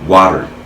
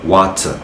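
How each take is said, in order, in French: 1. Le T du milieu ressemble à un D doux. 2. Le T du milieu est un T clair et net. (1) "on ne doit pas sentir le T. Donc, on prononce le T comme le D" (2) "et non water"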